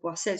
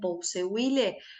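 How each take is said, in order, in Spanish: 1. Se dice con una pronunciación parecida al francés. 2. Se dice sin una pronunciación parecida al francés. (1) "a mí me sale hacerlo medio francés" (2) "si ustedes le dicen Pouseuille, díganle así"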